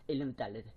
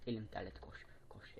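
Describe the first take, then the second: First: Said in the usual way. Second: Whispered under his breath. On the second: Real, not acted. Telling viewers his hand sweats, in a whisper. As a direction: breathe the words out voicelessly.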